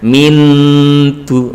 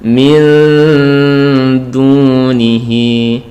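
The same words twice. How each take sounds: First: "min du" with the n distinctly sounded; tongue lands firmly on the n of "min" before "du"; slow "min du" with a plain full n; clear n, wrong way. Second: Very slow chant of "Min dunihi" with blurred n; hidden n nearing d. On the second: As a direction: stretch "Min" into a hum before easing into "dunihi". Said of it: "disamarkan nunnya itu mendekati huruf dal". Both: Shown as a demonstration.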